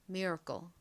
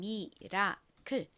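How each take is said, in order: First: It is said with American-style pronunciation. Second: It is said with Korean-style pronunciation. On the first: "미국식으로는 miracle" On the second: "한국식으로는 미라클"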